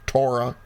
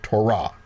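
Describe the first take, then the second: First: TOR-ah, stress on the first syllable of Torah. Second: Tor-AH, stress on the final syllable of Torah; Torah stressed on last syllable. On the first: Teacher showing one way folks say it, Torah stressed up front. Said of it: "some folks pronounce it". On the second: Teacher showing the other pronunciation, Torah stressed at the end. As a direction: land on the end of Torah: to-RAH. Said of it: "other folks pronounce it". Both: Shown as a demonstration.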